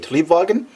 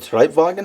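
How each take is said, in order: First: The first syllable sounds like 'tree'. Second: The first syllable sounds like 'try'. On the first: The speaker calls it right. "I believe, a Triebwagen" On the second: The speaker calls it wrong. "I said Treibwagen. I think I had it wrong"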